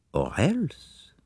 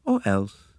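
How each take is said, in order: First: Higher, softer, rising echo; musing thought. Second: Said in the usual way. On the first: A narrator's reading. Poirot speculating about the colonel, soft musing. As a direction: let it hang softly as a private thought. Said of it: "thought Poirot".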